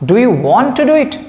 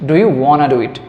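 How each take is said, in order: First: The words 'want to' are said in full. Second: The words 'want to' blend into 'wanna'. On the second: "ওয়ান টু তো লিখবো না, লিখে দেবো ওয়ানা"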